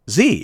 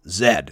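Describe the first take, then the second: First: The letter is said the American way, zee. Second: The letter is said the Canadian way, zed.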